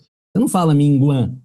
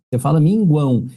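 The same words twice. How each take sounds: First: Minguã said with the final ão dropped to a bare nasal ã; wrong way. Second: Minguão with U and full ão ending; right way. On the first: Teacher to students, demonstrating the wrong minguã. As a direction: say minguã, cutting off the ending. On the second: Teacher to students, showing the right minguão. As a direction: say minguão, gwão at the end. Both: Shown as a demonstration.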